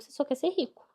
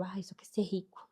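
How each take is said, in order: First: "ser rico" pushed up high and louder; raised, insistent rebuttal; emphatic correction. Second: Softer, dismissive mock quote of a critic; scoffing, quieter aside. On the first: Real, not acted. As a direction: hit it hard to correct the critic. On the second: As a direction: sneer it quietly as the critic would. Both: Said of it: "Não".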